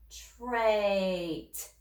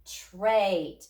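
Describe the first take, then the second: First: Trait drawn out slowly, sound by sound; slow stretched blending. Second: Trait said quickly as one word; said fast. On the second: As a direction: snap trait together quickly. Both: Shown as a demonstration. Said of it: "Say it fast".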